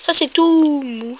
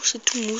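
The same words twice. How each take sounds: First: "tout" slow and stretched, higher; stressing softness. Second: Said in the usual way. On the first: Shown as a demonstration. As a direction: lean on "tout mou", drawn out.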